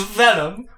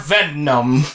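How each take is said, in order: First: The middle n sound is short and normal. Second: The middle n sound is drawn out and doubled. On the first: The speaker calls it right. "it's Venom" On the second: The speaker calls it wrong. "He put too many N's in the middle"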